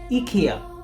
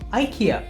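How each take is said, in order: First: It is pronounced the UK and European way. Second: It is pronounced the American way. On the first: This is how the company's UK and European ads say it. "In their U K and European ads, they say IKEA" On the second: This is how the company's American ads say it. "whereas their American ads say IKEA"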